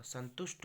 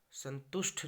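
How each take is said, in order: First: संतुष्ट ending in unaspirated ट; correct pronunciation. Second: संतुष्ट ending in aspirated ठ; wrong pronunciation. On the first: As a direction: say संतुष्ट as "santusht", no puff. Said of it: "होगा". (संतुष्ट के अंत में अल्पप्राण ट बोलें) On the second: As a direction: say संतुष्ट as "santushth", with a puff. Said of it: "नहीं होगा". (संतुष्ट के अंत में ट की जगह ठ बोलें) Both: Shown as a demonstration.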